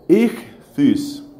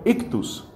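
First: The consonant after the first vowel is a raspy J. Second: The consonant after the first vowel is a hard K. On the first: The speaker calls it right. "no suena como K, sino más bien como J" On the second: The speaker calls it wrong. "La gente suele traducirlo ictus"

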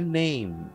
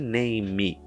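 First: The word ends cleanly on the m sound. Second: The word ends with an extra vowel sound. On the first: The speaker calls it right. "é name, name. O E tá lá por figuração" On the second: The speaker calls it wrong. "Não é name"

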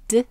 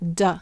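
First: The consonant is clipped with no vowel after. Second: The consonant is followed by an added vowel. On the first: The speaker calls it right. "isolate the D sound" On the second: The speaker calls it wrong. "and not D"

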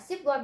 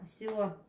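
First: The first syllable ends with a p sound. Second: The first syllable has no final p sound. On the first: The speaker calls it wrong. "người ta không nói là ship quên" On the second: The speaker calls it right. "người ta sẽ đọc siêu quên"

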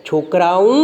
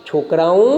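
No difference in how they are said.

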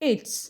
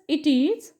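First: It is said as one contracted syllable. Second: It is said as two full words. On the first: "सो ज sound किंवा झ sound तयार होत असतो" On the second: "तसंच इट इज"

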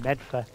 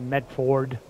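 First: It is said in the local accent. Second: It is said in a standard accent. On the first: "which is how they pronounce it" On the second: "instead of"

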